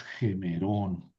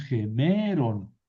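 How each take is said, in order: First: Gemerón stressed on the last syllable, ge-me-RON; corrected accent. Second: Gemeron stressed on the middle syllable, ge-ME-ron; wrong accent. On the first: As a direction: say gemerón slowly and lower, leaning on -rón. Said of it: "es gemerón". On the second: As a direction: say gemeron with a long, raised ME. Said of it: "Aquí ya no es". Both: Shown as a demonstration.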